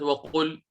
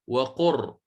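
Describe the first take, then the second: First: وقل ending on a clear L; waqul, closing on L with no R; original lam kept. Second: وقر ending on a still, trilled R; slow waqurr, closing on R with no vowel; lam turned to ra. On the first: Teacher contrasts for students the original word, وقل with final lam. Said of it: "ليست وقل". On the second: Teacher shows students the changed word, وقر with final ra. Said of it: "اللام صيرتها راء ساكنة فصارت". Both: Shown as a demonstration.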